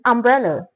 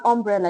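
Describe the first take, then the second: First: The first vowel is a short 'uh'. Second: The first vowel is not a short 'uh'. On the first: The speaker calls it right. "you say umbrella" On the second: The speaker calls it wrong. "you don't say umbrella"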